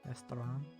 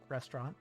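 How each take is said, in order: First: The middle has a 'to' sound, Japanese style. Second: The middle has a 'ch' sound, English style. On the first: "but without the T and the ch sound" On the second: "It's like restaurant"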